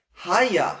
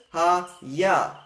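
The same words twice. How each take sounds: First: Haya as HA-ya, with HA stressed; stress on first syllable. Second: Ha-ya, with the stress landing on YA; stress on final syllable. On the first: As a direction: hit HA in Haya and let ya fall. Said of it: "emphasis moves back to the first syllable". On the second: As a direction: say Ha-ya slowly as ha-YA, end-stressed. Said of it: "emphasis at the end". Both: Shown as a demonstration.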